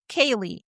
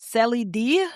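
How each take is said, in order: First: It sounds like 'Kaylee', with no final D. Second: It sounds like 'Celly D', with a final D. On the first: The speaker calls it right. "but it's pronounced Kaylee" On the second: The speaker calls it wrong. "I would have pronounced it as Celly D or something like that"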